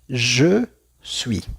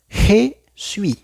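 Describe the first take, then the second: First: The J at the start sounds strong. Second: The J at the start sounds soft. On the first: The speaker calls it right. "correctamente en francés sería je suis. Se escucha más fuerte la letra J" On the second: The speaker calls it wrong. "una persona que no sabe diría"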